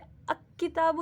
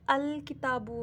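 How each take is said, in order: First: The l is dropped before k. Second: The l is clearly pronounced before k. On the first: The speaker calls it wrong. "अ किताबु नहीं होगा यहाँ पे" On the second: The speaker calls it right. "यहाँ पे अल किताबु होगा"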